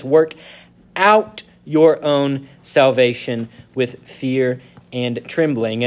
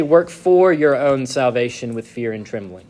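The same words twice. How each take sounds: First: Slow, with a break before a weighty "out"; "out" set apart as the correct word; stress on "out". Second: "for" picked out as the wrong word; stress on "for". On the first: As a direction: hold back, then land firmly on "out". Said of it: "It's not what he says". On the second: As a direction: lean on "for", then run through the rest. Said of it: "Paul does not say". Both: Shown as a demonstration.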